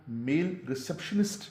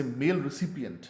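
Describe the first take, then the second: First: रिसेप्शनिस्ट said in place of recipient; common mistake. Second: mail रिसिपिएंट with a clear "sip-i-ent"; correct pronunciation. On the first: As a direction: say ri-SEP-shun-ist, as people wrongly do. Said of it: "जाहिर है कि गलत है". (रिसेप्शनिस्ट, लोगों की ग़लती दिखाते हुए) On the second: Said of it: "असल में जो इसका तलफ़ुज़ है". (रिसिपिएंट, "सिपि" साफ़ बोलते हुए) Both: Shown as a demonstration.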